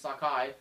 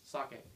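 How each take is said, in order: First: The word ends with an 'eye' sound. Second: The word ends with an 'eh' sound. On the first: The speaker calls it wrong. "I started saying it's Sakai. That's wrong" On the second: The speaker calls it right. "It's sake"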